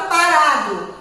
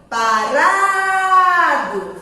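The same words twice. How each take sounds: First: Said in the usual way. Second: "Parado" with a long held RA; drawn-out stressed syllable. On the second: Shown as a demonstration. Teacher showing children the strong syllable, drawn out. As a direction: stretch the middle of "Parado": paraaado. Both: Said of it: "a sílaba forte é o ra".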